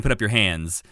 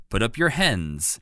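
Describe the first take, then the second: First: Southern drawl. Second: Slow "Put up your hens" with "hens" said with the short e of "hen" instead of "hands"; misheard as hens. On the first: Retold or imitated. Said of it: "I can't do a good Southern accent". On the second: Shown as a demonstration. Host showing how Rolf mishears the guard, "hens" for "hands". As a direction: draw out "hens" like the bird, slowly. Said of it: "but it sounds like to Rolf".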